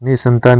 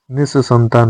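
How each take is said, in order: First: निसंतान with one short s; no doubling in निसंतान; single-s pronunciation. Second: निसंतान with a long double s; doubled s. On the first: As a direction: say निसंतान as ni-santan. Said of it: "निसंतान नहीं होता है". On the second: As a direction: hold the s in निसंतान. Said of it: "निसंतान होता है". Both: Shown as a demonstration.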